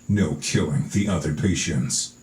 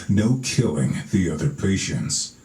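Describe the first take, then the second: First: It is read in a growly trailer voice. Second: It is read in a growly trailer voice.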